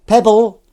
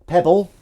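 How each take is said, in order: First: Loud, high cat call. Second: Testing a name. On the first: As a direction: call the name out across the garden. Calls out the cat name. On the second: First try at cat name. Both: Pretend.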